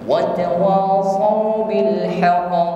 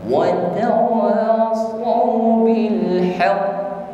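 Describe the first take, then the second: First: The final q bounces out directly without holding. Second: The final q is held and pressed before bouncing. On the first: The letter has no doubling mark. "qalqalahnya secara langsung" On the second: The letter carries a doubling mark. "maka qaf ditekan terlebih dahulu, baru diikuti dengan qalqalah"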